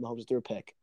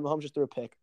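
First: Dropped to a hush; stunned, quiet. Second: Shocked. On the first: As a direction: let it sink in, softly. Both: Real, not acted. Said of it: "Oh my God".

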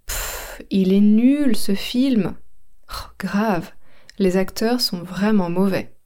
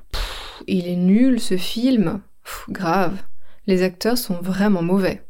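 First: Fed-up dismissive tone; scornful repeat. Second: Contemptuous movie review; scornful complaint. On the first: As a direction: repeat the sneer at the film. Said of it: "Je répète". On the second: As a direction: sneer at a bad film. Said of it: "Un deuxième exemple". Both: Shown as a demonstration.

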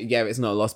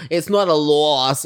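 First: Said in the usual way. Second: Slow, loud, put-on dismissive voice; mock-haughty imagined retort; imitating Jackie. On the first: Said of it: "Like, okay". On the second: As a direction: play Jackie waving him away, slow and louder.

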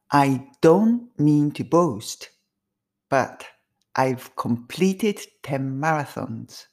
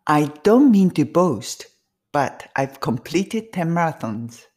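First: Very slow, each word drawn out; slow first take. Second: A bit faster. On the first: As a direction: say it slowly the first time for repeating. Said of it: "一回目はゆっくり". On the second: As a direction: pick up the pace for the second round. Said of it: "ちょっと早めに行きます". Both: Shown as a demonstration.

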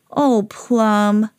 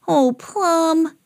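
First: Mild, drawn-out disappointment; Gracie's dismay. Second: Higher-pitched disappointed reproach; high, drawn-out storybook dismay; Sam. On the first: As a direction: sigh the words at a naughty dog. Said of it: "said Gracie". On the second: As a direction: lament a naughty dog in a high voice. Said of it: "said Sam". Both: A narrator's reading.

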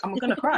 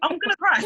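First: Higher, mock wobbly alarm; half-joking, as the tears come; near tears. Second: Much higher and louder, mock panic; hammed-up rising alarm before bursting; about to cry. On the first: Pen runs out of ink, mock teary alarm. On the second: Pen runs out, mock panic much higher. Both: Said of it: "and I'll be like".

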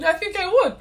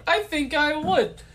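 First: Mock eager. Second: Slowed, drawn-out. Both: Shown as a demonstration. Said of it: "repeated line, different delivery".

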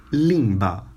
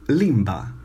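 Both takes have the same delivery.

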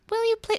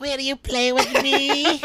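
First: Creepy ask. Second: High, slow creepy doll voice; too calm creepy doll. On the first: Shown as a demonstration. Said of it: "that sounds creepy". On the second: Acted. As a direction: ask sweetly like a haunted doll. Acting ghost girl Molly.

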